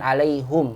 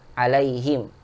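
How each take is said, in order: First: The vowel after the h is 'u'. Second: The vowel after the h is 'i'. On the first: The speaker calls it wrong. "bukan alaihum ya" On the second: The speaker calls it right. "Jadi kasrohumnya"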